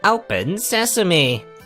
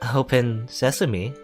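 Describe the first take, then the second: First: It is said forcefully, with conviction. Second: It is said hesitantly, without conviction.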